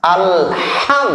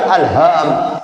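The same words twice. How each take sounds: First: Drawn-out, higher "alham" with light ha; "alham" with small ha. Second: Wrong ha in "alham". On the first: Teacher shows the small ha, correct "alham". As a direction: lengthen "alham" with a thin, clear ha. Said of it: "ha kecil". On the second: Teacher shows what not to say, wrong "alham". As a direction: say "alham" with the faulty ha, falling. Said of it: "bukan alham". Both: Shown as a demonstration.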